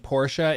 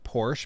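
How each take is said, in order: First: The name is said in a longer, drawn-out form. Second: The name is said in a short, clipped form.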